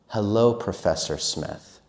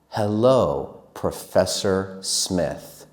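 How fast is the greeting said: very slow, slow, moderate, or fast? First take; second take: moderate; very slow. First: It is said faster again. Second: It is said very slowly. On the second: "This is slow"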